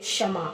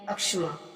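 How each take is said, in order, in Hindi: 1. शब्द सीधे व्यंजन-समूह से शुरू होता है। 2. शब्द की शुरुआत एक अतिरिक्त स्वर ध्वनि से होती है। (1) "क्षमा इसका उच्चारण सही है" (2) "अक्षमा गलत है"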